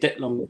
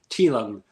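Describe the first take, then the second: First: The first word begins with a d sound. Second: The first word begins with a t sound. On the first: Listeners do not recognize who is meant. The speaker calls it wrong. "You say Dit Long, then people are like, wait, what?" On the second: Listeners recognize who is meant. The speaker calls it right. "most people know if you say T Long"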